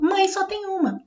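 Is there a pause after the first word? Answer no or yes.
no. There is no pause after the first word. Everyone has only one mother. "E agora mãe é o sujeito"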